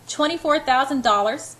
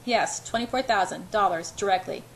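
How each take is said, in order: First: "Twenty-four thousand dollars?" rising high and loud in shock; almost scream it in disbelief; near scream. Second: Said in the usual way. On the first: A narrator's reading. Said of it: "I'm almost screaming".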